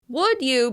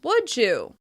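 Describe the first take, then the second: First: The d is kept before 'you'. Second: The d and y blend into a j sound.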